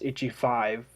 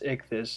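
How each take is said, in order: First: The name sounds like 'itchy five'. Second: The name sounds like 'ick-this'. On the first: The speaker calls it wrong. "They think it's Itchy Five, and it's not" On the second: The speaker calls it right. "It's it's Ichthys"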